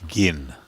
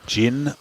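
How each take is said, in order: First: It begins with a hard g sound. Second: It begins with a soft j sound. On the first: "number two gin as in uh, begin the begin" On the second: "Gin the drink"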